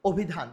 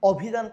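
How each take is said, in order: First: অভিধান opening on a rounded "o"; অভিধান with অ changed to ও; closed initial O. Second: অভিধান opening on a clear "aw"; অভিধান with an open, unchanged অ; open initial vowel. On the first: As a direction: say অভিধান as "obhidhan", the spoken form. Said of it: "আমরা বলি". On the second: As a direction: say অভিধান as "awbhidhan", the form not used. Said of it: "কখনো আমরা বলি না". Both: Shown as a demonstration.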